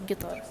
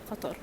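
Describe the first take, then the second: First: The word begins with a hard G sound. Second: The word begins with a deep Q sound. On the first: This is how Gulf locals say it. "some locals say gitar, the G" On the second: This is how Arabs from outside the Gulf say it. "with the qa"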